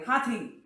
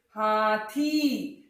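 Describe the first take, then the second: First: हाथी said quickly, थी cut short; quick हाथी without the long थी; wrongly short ee. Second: हाथी drawn right out, थी held long; slow हाथी with a long final ई. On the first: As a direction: clip the ई at the end of हाथी. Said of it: "ऐसे नहीं बोला जाता". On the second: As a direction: stretch the थी of हाथी. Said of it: "लंबा बोलोगे". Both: Shown as a demonstration.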